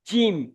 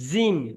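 First: The j is firm, tongue pressed to palate. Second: The j is soft, without firm palate contact. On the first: The speaker calls it right. "জিভের মাঝখান এবং ওই বরাবর উপরের তালুর সঙ্গে লাগিয়ে উচ্চারণ হবে" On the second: The speaker calls it wrong. "আপনি বলছেন জিম"

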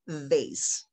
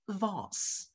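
First: It is said with an American accent. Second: It is said with a British accent. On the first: "Most of the time we say vase" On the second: "but for the people in the UK it's vase"

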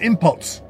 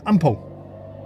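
First: The word ends with an audible T sound. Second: The word ends without any T sound. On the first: The speaker calls it wrong. "don't call it impots" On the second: The speaker calls it right. "You don't pronounce the T"

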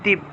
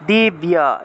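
First: The consonant is doubled with no 'ya' glide. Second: A clear 'ya' glide follows the consonant. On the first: This is the Bengali pronunciation. "বাংলায় বললে দিব্য" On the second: This is the Sanskrit pronunciation. "কিন্তু সংস্কৃত উচ্চারণটা হবে দীপ যুগ ইয়া"

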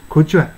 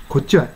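Both takes have the same delivery.

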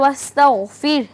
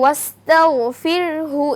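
First: The word stops on a silent r ending. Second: The word flows on with a final hu. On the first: The reciter pauses at this word. "যদি আমরা ওয়াকফ করি তাহলে ওয়াস্তাগফির" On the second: The reciter joins it to the next words. "যদি মিলিয়ে পড়ি তাহলে ওয়াস্তাগফিরহু"

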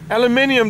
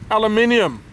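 First: It is said the British way, five syllables. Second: It is said the American way, four syllables.

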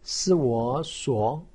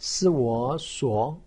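First: The pitch rises from mid to high. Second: The same.

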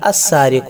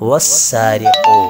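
First: The word starts with a clearly heard 'a' sound. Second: The opening 'a' is dropped, joined to 'wa'. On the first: Reading starts at this word. "ഹംസിൽ നിന്നാണ് തുടങ്ങുന്നത് എങ്കിൽ അസ്സാരിഖു, അവിടെ നമുക്കതിനെ വെളിവായി കേൾക്കാം" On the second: The word is joined to the letter before it. "തൊട്ട് മുൻപിലുള്ള അക്ഷരത്തിലേക്ക് ചേർത്ത് വായിക്കുമ്പോൾ"

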